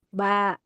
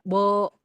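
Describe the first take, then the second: First: The vowel is thin and ends like a. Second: The vowel is thick and ends like o. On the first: The speaker calls it right. "Ba, ta, gitu kan?" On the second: The speaker calls it wrong. "Tidak bo, to, enggak begitu"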